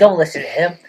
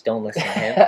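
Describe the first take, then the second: First: Mock warning. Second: Laughing aside. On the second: Acted.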